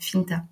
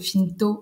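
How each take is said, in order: First: The word ends in a stressed open 'a' sound. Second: The word ends in a rounded 'o' sound. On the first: It sounds warm and recalls the Aveyron. "j'accentue particulièrement sur le A" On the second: It sounds less warm. "le Finto un peu moins"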